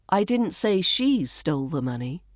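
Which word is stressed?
she. The word she carries the main stress. Someone else stole it. "Maybe someone else stole it"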